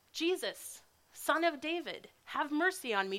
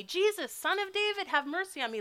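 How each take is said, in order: First: Raised, higher voice calling out for mercy; blind man yelling. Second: Much higher, louder desperate cry; yelling louder. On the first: Blind beggar calls to passing Jesus, raised voice. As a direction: call out to Jesus from the roadside. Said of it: "he starts to yell this". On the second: Blind beggar shouts louder toward Jesus, desperate cry. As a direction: cry out louder still, over the crowd. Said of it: "louder and louder". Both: Acted.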